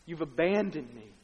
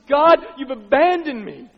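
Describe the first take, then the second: First: Said in the usual way. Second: Loud anguished cry. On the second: Acted. Jesus crying to God from the cross, loud cry. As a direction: cry out in abandonment at full voice. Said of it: "he cries out with a loud voice".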